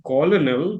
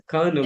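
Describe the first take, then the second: First: "colonel" pronounced letter by letter, "co-lo-nel"; spelling-based "colonel", three syllables; as written. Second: "colonel" pronounced "kernel"; spoken-form "colonel", like "kernel"; as people say it. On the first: Shown as a demonstration. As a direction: say "colonel" as spelled, with both L's. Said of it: "it is written colonel". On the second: Retold or imitated. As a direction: say "colonel" in two syllables with an R sound. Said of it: "why they're calling him".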